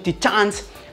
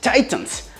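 First: The word is said with Japanese pronunciation. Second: The word is said with English pronunciation. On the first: "the Japanese pronunciation Titans because it's super silly" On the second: "I know that the correct pronunciation is Titans"

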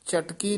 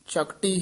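First: The t sound comes before the k. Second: The k sound comes before the t. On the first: The speaker calls it wrong. "ए भी चटकी नहीं कहना" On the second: The speaker calls it right. "चकटी ही उचारण करना है"

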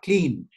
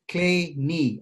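First: It is said as one syllable, like 'clean'. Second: It is said as two syllables, like 'clay-nee'. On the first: The speaker calls it wrong. "It's definitely not clean" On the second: The speaker calls it right. "as if your knee is made of clay"

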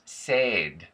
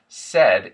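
First: The vowel is closer to an 'ay' sound. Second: The vowel is a short 'e' sound. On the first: This is the Irish way. "A and E tend to be reversed" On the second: This is the usual American way. "So instead of said"

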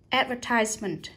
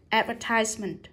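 First: The stress is on the third syllable. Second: The stress is on the third syllable.

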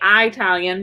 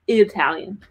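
First: The first vowel differs from the one in 'Italy'. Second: The first vowel matches the one in 'Italy'. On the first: "every time I say Italian" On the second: "he thinks it should be Italian. I said, but it's called Italy"

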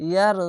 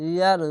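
No difference in how they are said.

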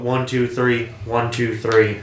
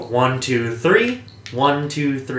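First: The pitch stays level and monotone. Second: The pitch moves up and down melodically. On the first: "And you go" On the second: "so when I do it, I do the... I go"

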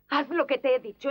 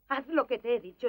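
First: The line is delivered harder and more forcefully. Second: The line is delivered softer and more gently. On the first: The speaker calls it wrong. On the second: The speaker calls it right.

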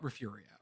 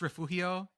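First: It is said with the local Texas pronunciation. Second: It is said with a Spanish pronunciation. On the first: "the locals will call it refurio" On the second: "in Spanish it's refugio"

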